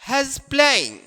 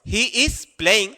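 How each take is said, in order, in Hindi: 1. "He is" को छोटा करके एक ही सिलेबल में बोला जाता है। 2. "He is" को दो पूरे शब्दों की तरह बोला जाता है।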